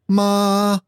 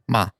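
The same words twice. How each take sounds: First: The pitch stays high and level. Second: The syllable is light with no set pitch. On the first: "There's a high, steady tone" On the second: "There's no tone at all"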